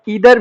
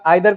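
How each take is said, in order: First: The word begins with an 'ee' sound. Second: The word begins with an 'eye' sound. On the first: "इधर भी कर सकते हैं" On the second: "आइदर का उच्चारण"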